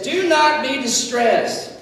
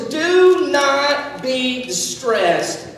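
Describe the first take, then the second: First: Slow, steady comfort; gentle reassurance; calm reassurance. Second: Very slow, deliberate reassurance; tender comfort, stretched out. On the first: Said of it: "he says". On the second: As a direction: lay each word down gently. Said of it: "now he says". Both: Shown as a demonstration.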